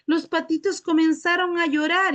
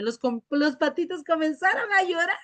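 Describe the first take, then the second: First: It is said in a sad tone. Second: It is said while laughing.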